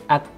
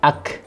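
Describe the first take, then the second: First: The k is held firmly, then released with little breath. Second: The k is released with an excessive rush of breath. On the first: The speaker calls it right. "Dahulukan dulu sifat syiddahnya" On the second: The speaker calls it wrong. "Jangan sampai kita ucapkan nafasnya didahulukan, akhirnya berlebihan"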